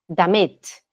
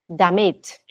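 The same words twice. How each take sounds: Both takes have the same delivery.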